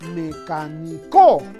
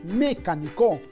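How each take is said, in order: First: The stress is on the fourth syllable. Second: The stress is on the first syllable. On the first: "Quizás sea aguda ... la mayor fuerza en la co no suena bien" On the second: "creo que no decimos mecánico, por lo tanto creo que no sería sobre esdrújula"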